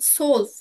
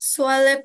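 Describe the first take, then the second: First: It is said in one syllable, like 'zwölf'. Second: It is said in two syllables, like 'swaleb'. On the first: The speaker calls it right. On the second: The speaker calls it wrong. "সোয়ালেব না ভাইয়া"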